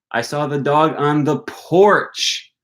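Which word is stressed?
porch. The stress falls on the word porch. The dog was on the porch, not elsewhere. "I didn't see the dog on the patio"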